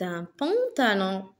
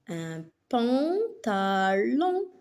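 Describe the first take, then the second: First: Said in the usual way. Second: "pantalon" very slow, syllable by syllable; découpage en syllabes. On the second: Shown as a demonstration. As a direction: stretch "pantalon" into pan, ta, lon. Enseignante découpe le mot en syllabes. (« pantalon » très lentement, syllabe par syllabe)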